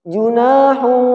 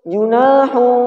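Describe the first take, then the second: Both takes have the same delivery.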